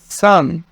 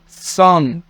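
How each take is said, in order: First: The s sound is light and plain. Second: The s sound is heavy and emphatic. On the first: The speaker calls it right. "بالسين" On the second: The speaker calls it wrong. "وليس سان بالصاد"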